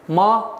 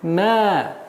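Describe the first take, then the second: First: The syllable is pronounced with a hard sound. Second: The syllable is pronounced with a soft sound. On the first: The speaker calls it wrong. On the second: The speaker calls it right.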